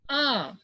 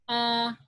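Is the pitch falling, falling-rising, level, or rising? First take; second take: falling-rising; level. First: The pitch dips down, then rises. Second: The pitch stays level and flat. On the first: "down, downward, and then upward" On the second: "this is flat"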